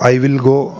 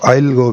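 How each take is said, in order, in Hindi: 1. 'will' शब्द पूरा बोला जाता है। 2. 'Will' छोटा होकर 'I' से जुड़ जाता है। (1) "आप इसको हम आजकल विल ही लगाते हैं" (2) "विल की जगह आप ऐसे ये इल"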